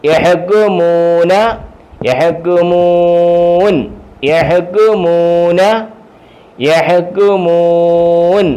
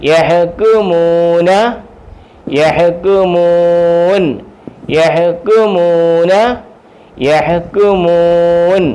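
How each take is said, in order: The two takes are said the same way.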